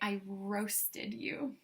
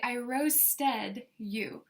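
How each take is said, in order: First: The ending of roasted sounds like 'id'. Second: The ending of roasted sounds like 'ted'. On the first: The speaker calls it right. "We say" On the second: The speaker calls it wrong. "We don't say"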